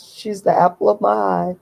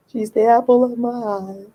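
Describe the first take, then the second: First: Said in the usual way. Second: Doting. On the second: Real, not acted. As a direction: coo it fondly, stretching the words. Dotes on her daughter, repeats it.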